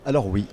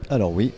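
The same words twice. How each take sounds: The two takes are said the same way.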